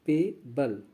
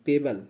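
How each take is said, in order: First: "पेबल" broken as पे, pause, बल; teacher's gentle split of "पेबल", पे then बल; syllable-split pronunciation. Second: Said in the usual way. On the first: Shown as a demonstration. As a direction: softly sound out "पेबल" in two parts, पे - बल. Teacher sounds out the word.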